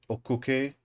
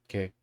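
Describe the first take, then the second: First: All syllables are said fully and clearly. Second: The vowels drop out, leaving one short syllable. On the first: The speaker calls it wrong. "doesn't really sound like that" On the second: The speaker calls it right. "the O and the U both becoming not voiced"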